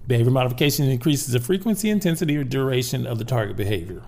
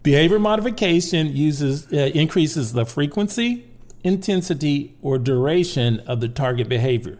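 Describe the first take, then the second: First: It is said at normal speed. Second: It is said slowly.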